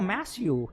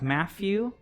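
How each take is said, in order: First: The middle sound is an s. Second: The middle sound is an f. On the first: "it's usually an S sound" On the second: "sometimes an F, like Matthew"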